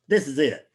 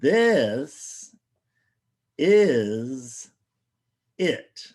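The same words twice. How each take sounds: First: It is said at normal speed. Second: It is said slowly.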